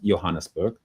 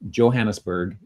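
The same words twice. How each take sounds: First: It is said the South African way. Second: It is said the usual English way. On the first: This is how locals usually say it. "in South Africa, it, um, more commonly, it, it's pronounced" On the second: This is how English speakers usually say it. "commonly accepted in, in English in the English language"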